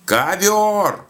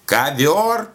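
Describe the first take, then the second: First: КОВЁР drawn out very high, then falling; insistent mishearing. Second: КОВЁР swept high as a question; questioning mishearing. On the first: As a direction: call КОВЁР back, long and high-pitched. Old woman insists on misheard word. (высоко, протяжно повторяет «Ковёр!») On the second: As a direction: ask back KOVYOR as КОВЁР, pitch rising. Old woman mishears the call. (переспрашивает: «Ковёр?», с высоким подъёмом) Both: A narrator's reading.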